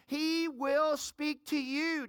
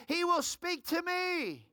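First: Very slow, leaning on "will"; slow emphatic declaration. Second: Slow, higher lead-in for the crowd; call for echo. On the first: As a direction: draw out "He will speak to you" for the crowd to echo. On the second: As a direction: model the response "He will speak to me" slowly. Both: Shown as a demonstration. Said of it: "Just shout out, say".

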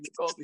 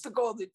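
First: Said in the usual way. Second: Put-on kids cheering. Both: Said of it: "they're cheering".

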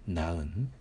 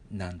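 First: なうん with a separate う before ん; U sound retained. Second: なん as one syllable, no う; U sound dropped. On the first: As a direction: keep the う audible in なうん. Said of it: "うの音はなくさないでください". (なうんの「う」をはっきり残して発音) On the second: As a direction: merge it into a single なん. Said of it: "なんというふうにしない". (「う」を落として「なん」と一音節で発音) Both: Shown as a demonstration.

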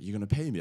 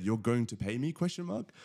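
First: Surprised. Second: Disbelieving question. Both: Retold or imitated. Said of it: "I literally said".

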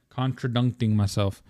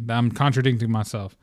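First: "Contradicting" garbled as "contra-dunk-ting"; jokey "contra-DUNK-ting" for "Contradicting"; playful mispronunciation. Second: Said in the usual way. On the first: Shown as a demonstration. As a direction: say "Contradicting" with "dunk" in place of "dic". Repeats word with garbled middle syllable.

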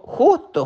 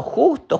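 First: Said in the usual way. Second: Justo leapt up much higher, drawn out; stress on justo. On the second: A narrator's reading. Narrator pinpoints where the rock fell, justo sung high. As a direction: hit justo high for suspense.

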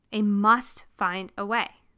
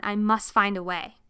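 First: "must" lifted, slower and drawn forward; pulled, not pushed. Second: Said in the usual way. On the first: Shown as a demonstration. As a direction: say "must" slowly with a rising pull. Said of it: "Not in a push way. Again, in a pulled way". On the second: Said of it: "Not in a push way".

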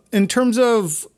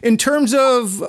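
Both takes have the same delivery.

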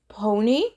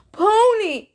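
First: Timid whimper. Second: High, loud, thrilled shout; cry of rapture. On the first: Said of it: "He whimpered". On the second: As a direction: burst out in pure delight. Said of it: "he cried in a tool rapture". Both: A narrator's reading.

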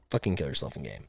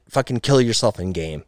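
First: Much softer and lower throwaway; muttered aside. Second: Said in the usual way. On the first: Acted. Host to cheaters, a muttered quiet repeat. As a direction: mumble it under your breath like an afterthought.

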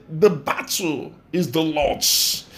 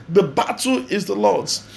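First: Slow, drawn-out scripture quote; slow solemn quotation. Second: Said in the usual way. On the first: Acted. Preacher quoting the Lord's words to the congregation, slow and solemn. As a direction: let each word of the verse sink in slowly.

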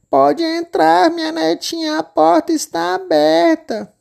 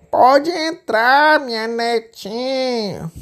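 First: Very high, slow frail granny voice; granny welcoming her grandchild; old grandma. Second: Very slow, much higher fake granny voice; wolf luring the girl in as granny; wolf faking grandma. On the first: Acted. Vovó convida a entrar. (vovó de voz aguda e lenta) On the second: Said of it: "imitando a voz da vovozinha". (lobo fingindo ser a vovó, bem lento)

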